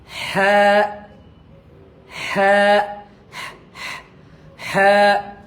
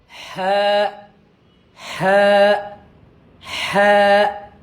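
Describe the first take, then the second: The two takes are said the same way.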